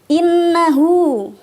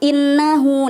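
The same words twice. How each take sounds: First: The double n is held with a long nasal hum. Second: The double n is short without a held hum. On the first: The speaker calls it right. "didengungkan. In kayak gitu" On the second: The speaker calls it wrong. "Jangan cuma innahu"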